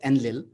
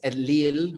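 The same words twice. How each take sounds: First: The stress is on the first syllable. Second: The stress is on the last syllable. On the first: The speaker calls it wrong. "is called as Enlil" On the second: The speaker calls it right. "in fact it's Enlil with a, an emphasis on the il"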